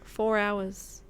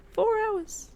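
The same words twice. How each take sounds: First: Said in the usual way. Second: High exasperated squeak. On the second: Real, not acted. Gamer squealing at finally finding a hatchet, exasperated. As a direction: leap way up on "Four hours", incredulous.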